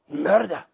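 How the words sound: The word is said in a boastful, proud way.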